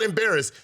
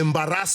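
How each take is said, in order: First: The last syllable is not stressed. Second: The stress falls on the last syllable. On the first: "it's not embarrass" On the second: "Emphasis on the last syllable"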